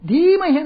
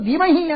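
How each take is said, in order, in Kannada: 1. ಮೊದಲ ಸ್ವರ ದೀರ್ಘ. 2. ಮೊದಲ ಸ್ವರ ಹ್ರಸ್ವ. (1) "ಧೀಮಹಿ ಅಂತ ದೀರ್ಘ" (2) "ಧೀಮಹಿ ಅಂತ ಹೇಳುವ ಬದಲು"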